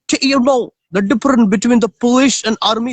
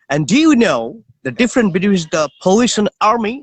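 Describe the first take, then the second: First: It is spoken in a South African accent. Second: It is spoken in an American accent. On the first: "This is South African" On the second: "This is American"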